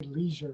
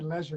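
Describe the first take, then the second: First: The first vowel is long, as in see. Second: The first vowel rhymes with pleasure, as in bed. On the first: "because I say leisure" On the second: "the way you say leisure ... the British way of saying it because you just put a P in front of it and it becomes pleasure"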